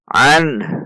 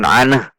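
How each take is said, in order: First: The final n ends cleanly without an echo. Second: The final n ends with a bouncing echo. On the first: The speaker calls it right. "Seperti itu" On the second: The speaker calls it wrong. "Namun bukan an, karena nun sukun bukan kolkolah"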